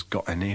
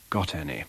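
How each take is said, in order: First: "got any" with the t of got as a glottal stop; Yorkshire "got any", t glottaled; Leeds glottal stop. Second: Said in the usual way. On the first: Shown as a demonstration. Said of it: "a glottal stop in the phrase".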